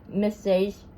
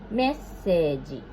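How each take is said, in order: First: It is said with English pronunciation. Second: It is said with Japanese katakana pronunciation. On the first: "the English is" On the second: "in Japanese, we pronounce like this"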